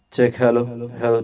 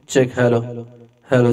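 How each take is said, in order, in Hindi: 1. आवाज़ बिना किसी इको के सूखी लगती है। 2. आवाज़ में साफ़ सुनाई देने वाला इको इफ़ेक्ट है। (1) "सो अभी इको ऑफ है" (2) "अभी ये 50 में"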